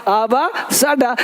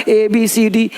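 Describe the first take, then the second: First: Slow "आ बा सा डा", each letter as a sound with an "a" vowel; letters read as sounds. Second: Said in the usual way. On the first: Shown as a demonstration. Teacher re-teaching the alphabet by sound, slow "आ बा सा डा". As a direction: sound out "आ बा सा डा" instead of letter names. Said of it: "लेकिन अब पढ़ना". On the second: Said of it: "बचपन से पढ़े हैं".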